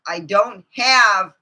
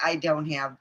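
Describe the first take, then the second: First: I don't have said slowly and louder, leaning on have; emphatic repeat. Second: Said in the usual way. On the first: Real, not acted. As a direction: drag out and punch the words I don't have. Repeats the phrase, now dragged out.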